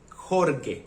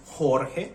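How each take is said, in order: First: "Jorge" as HOR-geh, with hard G; hard-G misreading. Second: "Jorge" as HOR-heh, drawn out; Spanish name pronunciation. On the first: Foreigner showing how Serbians read his name, hard-G misreading. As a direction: read "Jorge" letter by letter, G as in get. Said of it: "H, H O R G E". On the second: Foreigner introducing his own name, Spanish pronunciation HOR-heh. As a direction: say "Jorge" with breathy h sounds for J and G. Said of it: "My name is Jorge". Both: Shown as a demonstration.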